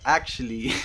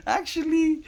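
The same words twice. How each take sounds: First: Laughing realization. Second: Actually jumps up into a high squeak; squeaky realization. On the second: Squeaky high realization as she imitates her own thinking to viewers. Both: Retold or imitated. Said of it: "you kind of start thinking, like".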